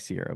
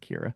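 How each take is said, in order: First: The name begins with an s sound. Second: The name begins with a k sound. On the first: The speaker calls it wrong. "it's spelled like Sierra" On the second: The speaker calls it right. "but it's Kiera"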